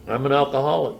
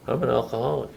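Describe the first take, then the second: First: A firm, proud, fuller-voiced "I'm an alcoholic"; said with pride. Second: A reluctant, unconvinced "I'm an alcoholic"; half-hearted admission. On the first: Pressed by his sponsor, he finally says it with pride. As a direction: own it and mean every word. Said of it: "Take pride in it". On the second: Retold or imitated. A newcomer grudgingly admits it to his sponsor, half-hearted. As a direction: mumble it without meaning it. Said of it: "Well, say it like you mean it".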